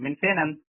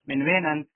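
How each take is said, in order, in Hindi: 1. बीच का शब्द f ध्वनि से शुरू होता है। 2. बीच का शब्द w ध्वनि से शुरू होता है। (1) "फेन तीनों तरीके से बोला जाता है" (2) "वेन"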